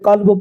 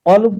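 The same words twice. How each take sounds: First: It starts with a plain k. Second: It starts with a deep uvular q. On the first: The word means dog. The speaker calls it wrong. "छोटे काफ से अगर किसी ने क़ल्ब पढ़ा" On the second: The word means heart. The speaker calls it right. "क़ल्ब के माना है दिल"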